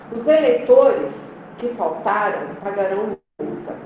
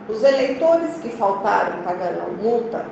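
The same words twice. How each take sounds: First: There are pauses around 'que faltaram'. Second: It is said without pauses around 'que faltaram'. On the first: "Veja que eu dou uma pausa" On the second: "Quando eu tiro a vírgula"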